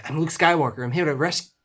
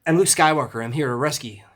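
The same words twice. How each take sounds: First: Higher, hurried film-quote voice, tripping at the end; rushed quote that breaks off; Mark Hamill's Luke. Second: Second go at a hurried hero quote, opening high and loud; higher, louder start, pushed through to the end; Mark Hamill's Luke. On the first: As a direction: rattle off a heroic line and fumble it. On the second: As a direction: announce yourself like an eager film hero. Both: Acted. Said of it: "hard to talk as fast as Mark Hamill".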